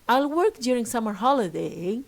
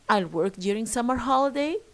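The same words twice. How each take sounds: First: The voice falls then rises. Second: The voice rises at the end.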